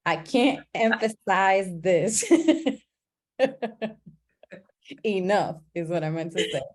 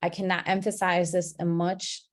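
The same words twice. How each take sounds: First: Slowed, laughing correction of a slip; chuckling through the correction; laughing self-correction. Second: Said in the usual way. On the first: Shown as a demonstration. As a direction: fix the wording with an embarrassed laugh. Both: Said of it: "that was not proper English".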